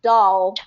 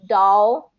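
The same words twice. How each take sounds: First: "doll" with the tongue touching the roof of the mouth; "doll" with a light, front L. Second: "doll" with the tongue never touching the roof of the mouth; dark L. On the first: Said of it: "It's not doll". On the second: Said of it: "that's how native speakers are going to say it". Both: Shown as a demonstration.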